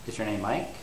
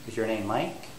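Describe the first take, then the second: Both takes have the same delivery.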